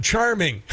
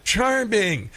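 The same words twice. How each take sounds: First: Said in the usual way. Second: Sarcastic sing-song on "Charming."; mocking. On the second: Shown as a demonstration. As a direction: drawl "Charming." with mock sweetness. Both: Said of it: "That's really sexist".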